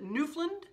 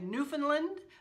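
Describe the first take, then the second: First: The middle syllable 'found' is left out. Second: The middle syllable 'found' is fully pronounced.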